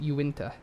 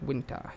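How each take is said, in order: First: The name begins with a 'you' sound. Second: The name begins with a 'w' sound. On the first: "If it's not, it's" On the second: "I think that's more of a the uh, of the Indian pronunciation"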